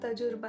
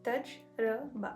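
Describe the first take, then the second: First: The word is said without three separate parts. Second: The word is said in three separate parts. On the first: The speaker calls it wrong. "दरअसल गलत तलफ़्फ़ुज़ है" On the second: The speaker calls it right. "Three parts में आप इसको divide करेंगे"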